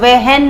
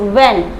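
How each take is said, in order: First: The word is said with an H sound. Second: The word is said without an H sound. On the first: The speaker calls it wrong. "हम वहन नहीं कहेंगे" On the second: The speaker calls it right. "It's when"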